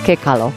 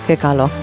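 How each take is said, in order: Both takes have the same delivery.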